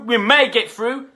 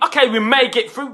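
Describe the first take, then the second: First: Slow, with "may" leaned on and rising; stress on may. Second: Said in the usual way. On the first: Shown as a demonstration. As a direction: draw out "may" and let it rise. Repeats the line, stressing may.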